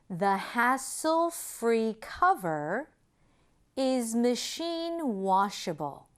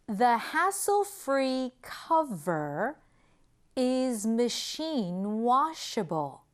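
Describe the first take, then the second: The two takes are said the same way.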